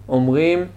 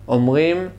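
Both takes have the same delivery.

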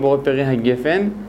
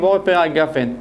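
First: The last word is said 'gefen', with an e vowel. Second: The last word is said 'gafen', with an a vowel. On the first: The speaker calls it wrong. "אנחנו לא אומרים בורא פרי הגפן" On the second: The speaker calls it right. "אנחנו אומרים בורא פרי הגפן"

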